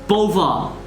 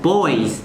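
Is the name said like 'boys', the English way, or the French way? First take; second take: French; boys. First: It is said with a French pronunciation. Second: It sounds like the one-syllable word 'boys'. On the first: How the original French word sounds. "or in French, it's" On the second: A naive reading from the spelling. "if I see this with my English mind, I'd be like, oh"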